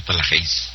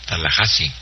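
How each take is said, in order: First: Tallahassee misread as "Tala-HEIS"; wrong pronunciation. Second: Tallahassee said as "Tala-HA-si"; correct pronunciation. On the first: Host shows how not to say it, Tallahassee as "Tala-HEIS". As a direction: end Tallahassee on one syllable, "heis". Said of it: "no Tallahassee". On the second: Host corrects the pronunciation, Tallahassee ending in "HA-si". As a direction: pronounce Tallahassee low, ending "HA-si". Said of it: "Se pronuncia". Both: Shown as a demonstration.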